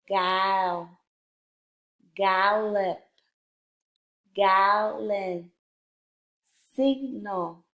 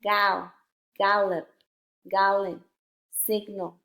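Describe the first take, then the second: First: Careful, drawn-out reading of a word list; slow word reading. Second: Brisker word-list reading, each word in one go; a little faster. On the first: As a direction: read each word slowly, syllable by syllable. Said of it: "a little bit faster". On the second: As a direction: read each word a bit faster, without splitting syllables. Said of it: "read the words a little bit faster". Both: Shown as a demonstration.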